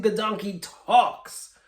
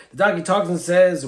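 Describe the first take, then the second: First: "the donkey talks" said slowly, drawn out for wonder; slow each word as a big reveal; dramatic slow reveal. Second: Said in the usual way. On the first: Shown as a demonstration. Storyteller to viewers, slowly building wonder. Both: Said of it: "even more amazing".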